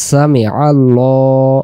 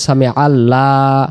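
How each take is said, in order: First: সামি আল্লাহ slow, with the l in আল্লাহ thick and heavy. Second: আল্লাহ with a thin, light l, the wrong way. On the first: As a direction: stretch সামি আল্লাহ and make the লাম heavy. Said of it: "একটু ভারী আওয়াজে পড়তে হবে". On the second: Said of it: "নিয়মটা ভুল হয়ে যাবে". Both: Shown as a demonstration.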